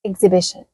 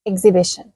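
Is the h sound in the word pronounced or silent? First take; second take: silent; silent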